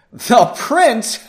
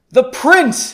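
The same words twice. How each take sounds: First: High, loud scoffing question; laughing mage. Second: High, loud scoffing; mocking mage. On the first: Acted. Lead mage laughs off the prince, high and loud. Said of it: "The lead mage laughed". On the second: Lead mage scoffs at the prince's claim, high and loud. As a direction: sneer at the very idea of a prince. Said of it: "the lead mage laughed".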